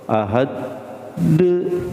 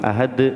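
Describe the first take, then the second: First: The final d is followed by an added vowel. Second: The final d ends cleanly with no added vowel. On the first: The speaker calls it wrong. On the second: The speaker calls it right. "langsung ya"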